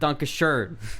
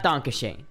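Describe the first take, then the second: First: The last vowel is a rounded 'er' sound. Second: The last vowel is a plain 'ay' sound. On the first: The speaker calls it right. "It's Donkashern" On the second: The speaker calls it wrong. "It's not Donkashane"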